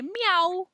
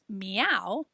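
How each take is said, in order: First: High squeaky meow; cat meow. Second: Said in the usual way. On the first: Shown as a demonstration. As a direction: mew it up high like a kitten. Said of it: "they say". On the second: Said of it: "We say that a cat says".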